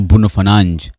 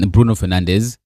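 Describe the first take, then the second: First: The name is said with Portuguese pronunciation. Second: The name is said with English pronunciation.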